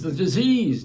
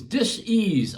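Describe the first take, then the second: First: Said in the usual way. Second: Dis-ease broken into two parts, dis then ease; dis-ease with a small break after dis; split as dis-ease. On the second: Shown as a demonstration. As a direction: pull dis-ease apart to show its root.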